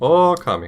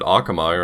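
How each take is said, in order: First: The word begins with an 'oh' sound. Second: The word begins with an 'ah' sound. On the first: This is how the game itself says it. The speaker calls it right. "That's how they say it in the title screen" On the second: This would upset many people. The speaker calls it wrong. "it could be worse. I could pronounce it Akamai"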